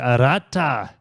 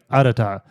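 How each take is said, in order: First: It is said with a Hispanic accent. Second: It is said with a Japanese accent. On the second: "in Japanese it'd be like Arata"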